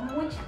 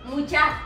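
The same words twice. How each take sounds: First: The stress is on the first syllable. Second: The stress is on the last syllable. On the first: It means 'a lot' (feminine of 'mucho'). The speaker calls it wrong. "No, no mucha" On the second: It is a Guatemalan word used to address friends. The speaker calls it right. "con acento en la A"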